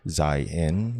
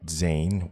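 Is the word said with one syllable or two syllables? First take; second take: two syllables; one syllable. First: The word is said with two syllables. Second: The word is said with one syllable. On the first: The speaker calls it right. "I have done so in a way that you can see how it is pronounced" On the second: The speaker calls it wrong. "people pronouncing it Zain, which is incorrect"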